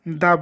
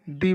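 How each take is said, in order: First: The word ends in a short 'uh' vowel. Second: The word ends in a long 'ee' vowel. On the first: The next word starts with a consonant sound. "अगला शब्द व्यंजन ध्वनि से start होता है तो वहाँ द को द बोलेंगे" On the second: The next word starts with a vowel sound. "अगले शब्द की शुरुआत अगर स्वर ध्वनि से हो तो वहाँ द को दी बोलेंगे"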